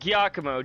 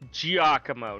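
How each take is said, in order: First: The name begins with a hard G sound. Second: The name begins with a J sound. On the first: The speaker calls it wrong. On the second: The speaker calls it right.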